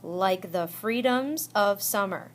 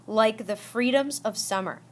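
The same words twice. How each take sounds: First: "Like the freedoms of summer" slowly, in seven beats; syllable by syllable. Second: Said in the usual way. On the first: Shown as a demonstration. Teacher counting seven syllables for students, "Like the freedoms of summer" slow and measured. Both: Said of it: "Seven syllables".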